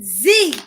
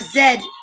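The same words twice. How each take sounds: First: The letter is said as zee. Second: The letter is said as zed, Irish style.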